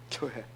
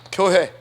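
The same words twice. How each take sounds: First: Quiet echo. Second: Loud declaration. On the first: Preacher echoing 교회 to his church, soft and low. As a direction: drop 교회 down to a soft, low murmur. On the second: Preacher stressing 교회 to his church, loud. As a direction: call out 교회 loud and strong. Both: Acted. Preacher repeats word contrastingly.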